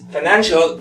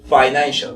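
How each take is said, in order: First: The first vowel is a reduced schwa. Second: The first vowel is a full vowel. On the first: "si lo vemos como sonido de schwa sound, la primera es" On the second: "pero también se puede decir"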